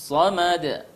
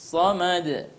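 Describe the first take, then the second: No difference in how they are said.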